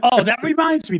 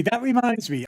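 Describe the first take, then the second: First: Laughing. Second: Said in the usual way. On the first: Real, not acted. Laughing after frustration remark.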